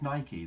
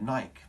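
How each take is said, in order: First: The name is said as two syllables, ending in ee. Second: The name is said as one syllable, like bike. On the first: The speaker calls it right. "apparently the correct way is Nike" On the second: The speaker calls it wrong. "I've always said Nike my whole life"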